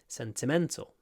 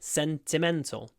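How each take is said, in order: First: Stress falls on the third syllable only. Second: Stress falls on the first and third syllables. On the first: "It's actually on the third syllable though" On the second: "I kind of stressed the first and the third syllable"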